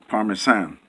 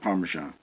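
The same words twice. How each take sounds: First: The middle consonant is a plain s sound. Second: The middle consonant is a zh sound. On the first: This matches how the word is spelled. "there's no H in there behind the S. So it, it should be Parmesan" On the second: This is how people commonly say it. "that's the way they pronounce it"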